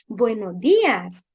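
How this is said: The greeting is said in a warm, friendly tone. The child feels welcomed and cared for. The speaker calls it right. "algo cálido"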